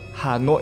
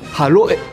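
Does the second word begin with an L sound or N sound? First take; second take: N sound; L sound. First: The second word begins with a clear N sound. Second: The second word begins with an L sound. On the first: The speaker calls it right. "gọi Hà Nội" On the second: The speaker calls it wrong. "chữ N và chữ L của Khỏe Mạnh thì nó không rõ"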